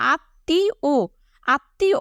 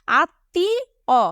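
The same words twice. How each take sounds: First: আত্মীয় ending in a rounded "o"; standard pronunciation. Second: আত্মীয় very slow, ending in an open "aw"; everyday local pronunciation. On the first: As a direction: say আত্মীয় as "aat-tee-o", rising at the end. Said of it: "কিন্তু এটা প্রমিত উচ্চারণ". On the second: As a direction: draw out আত্মীয় as "aat... tee... aw". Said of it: "এটা ছিল আমাদের উচ্চারণ". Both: Shown as a demonstration.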